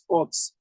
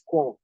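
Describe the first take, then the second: First: The word ends with an audible ps. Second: The word ends with a silent ps. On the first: The speaker calls it wrong. "not National Youth Service Corps" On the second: The speaker calls it right. "They here core"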